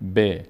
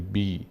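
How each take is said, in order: First: The vowel after the consonant is a short e. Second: The vowel after the consonant is a long ee. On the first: The speaker calls it right. "کسره هم به این شکل خونده میشه که" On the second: The speaker calls it wrong. "نمیشه بی"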